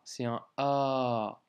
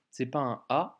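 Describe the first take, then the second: First: Un A drawn out slowly, the A held long. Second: Un A said short and plain. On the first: Teacher showing the lengthened A, slowly. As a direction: stretch the A. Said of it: "un A allongé". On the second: Teacher showing the wrong short A. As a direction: give a short A. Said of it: "C'est pas un A, c'est un A". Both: Shown as a demonstration.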